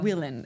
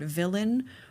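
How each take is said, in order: First: The word starts with a W sound. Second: The word starts with a V sound. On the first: "she would pronounce it as" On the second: "instead of saying the word villain"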